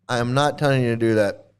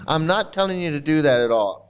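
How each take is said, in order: First: Not pressed, lower and firm; stress on not. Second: Said in the usual way. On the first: Shown as a demonstration. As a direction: lean hard on "not" in "I am not telling you". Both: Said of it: "I just wanna reiterate".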